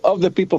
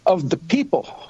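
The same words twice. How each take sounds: First: The stress falls on the word of. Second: The stress falls on the word people. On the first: The focus is on the relation, not the people. The speaker calls it wrong. "not the way you hear it in school" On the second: The government belongs to the people themselves. The speaker calls it right. "with the emphasis on people"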